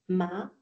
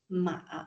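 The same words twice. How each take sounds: First: The pitch rises from mid to high. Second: The pitch dips low, then rises.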